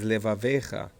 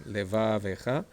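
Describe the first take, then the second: First: "levavecha" as leva-VEE-cha, falling at the end; stress on VE, long E. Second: "levavecha" slow, le-VAA-vecha with rising end; stress on VA, short E. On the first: Teacher contrasting the other word for students, stress on VE. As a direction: lengthen the ve in "levavecha", then drop. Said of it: "It's a long ev". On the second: Teacher contrasting this one for students, slow stress on VA. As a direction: stretch VA in "levavecha", lift the ending. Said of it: "This one, levavecha". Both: Shown as a demonstration.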